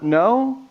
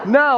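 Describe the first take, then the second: First: It sounds unsure and hesitant. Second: It sounds firm and decisive.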